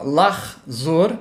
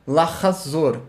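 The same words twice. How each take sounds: First: Lahzor run together, two syllables, no middle vowel; fast lahzor. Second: Lahazor spoken unhurried, the middle a clearly voiced; slow lahazor. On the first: Teacher contrasting fast and slow Hebrew lahzor. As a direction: clip lahzor into two beats. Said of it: "tô falando mais pausadamente". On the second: Teacher contrasting fast and slow Hebrew lahazor. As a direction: stretch lahazor into three syllables. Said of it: "falando mais pausadamente". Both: Shown as a demonstration.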